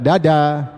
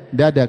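First: "Dada" with a heavy dal, tongue pulled back; wrong dal. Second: "Dada" with a light dal, tongue forward; correct dal. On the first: Teacher to students, showing the wrong heavy dal. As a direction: say "Dada" the Javanese way, thick. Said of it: "Bukan dada". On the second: Teacher to students, showing the correct thin dal. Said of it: "Dada ya kan". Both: Shown as a demonstration.

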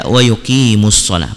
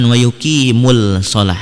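First: WA YUQIMUS SHALAH with doubled s, no l; assimilated lam. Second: WA YUQIMUL SHALAH with the l sounded; unassimilated lam. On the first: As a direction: recite "yuqimus shalah", mus flowing straight into shalah. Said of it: "Alif lam yang tidak dibaca dan masuk". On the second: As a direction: say "yuqimul", lingering on l before shalah. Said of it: "bukan wa yuqimul shalah". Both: Shown as a demonstration.

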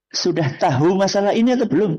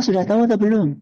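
First: "tahu" as written, ta-hu with a clear h; spelling pronunciation. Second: "tahu" run together as tau, no h; everyday pronunciation. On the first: Teacher showing a misreading to the men, spelling pronunciation. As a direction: sound the h in "tahu". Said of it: "Tulisannya apa?". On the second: Teacher correcting the men's reading, everyday pronunciation. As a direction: drop the h in "tahu" and glide to tau. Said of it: "Tapi mengucapkannya". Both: Shown as a demonstration.

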